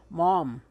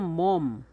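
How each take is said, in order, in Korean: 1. 모음은 더 둥근 아래아 소리입니다. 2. 모음은 그냥 '오' 소리입니다. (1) "바다에서 나는 해초는" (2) "사람 몸은"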